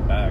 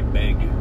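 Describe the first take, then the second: First: The vowel is said the speaker's usual way. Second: The vowel is said the local way. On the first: "I say bag" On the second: "I don't say beg"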